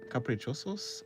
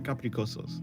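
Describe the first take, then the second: First: The middle consonant is a ch sound. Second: The middle consonant is a hard k sound.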